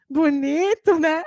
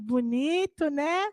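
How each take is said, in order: First: Mocking bonito, né, pushed louder; louder mocking echo. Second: Soft mocking bonito, né; mocking echo. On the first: Children mock parents' automatic reply again, louder teasing. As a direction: rub it in harder. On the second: Children mock parents' automatic reply, soft teasing. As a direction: tease the parents' empty answer.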